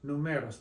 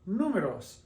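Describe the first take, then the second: First: The stress is on the second syllable. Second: The stress is on the first syllable. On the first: The speaker calls it wrong. "If it didn't, it would be pronounced numeros" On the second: The speaker calls it right. "stressing the vowel that's three back from the end"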